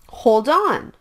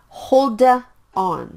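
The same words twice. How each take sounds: First: The two words are blended into one sound. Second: The two words are said separately with a break. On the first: The speaker calls it right. "the sound is blended" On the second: The speaker calls it wrong. "Please don't say it like"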